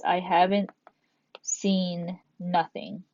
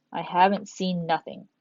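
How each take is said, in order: First: Slow, lingering "seen nothing" in a mock casual voice; imitating a common double negative, slowly; drawn-out imitation. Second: Said in the usual way. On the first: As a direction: drag out "seen nothing" like someone who says it. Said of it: "some people say this".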